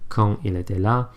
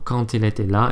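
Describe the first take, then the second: First: Quand and il stay separate with no link. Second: Quand joins il with a linking t sound. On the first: The speaker calls it wrong. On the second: The speaker calls it right.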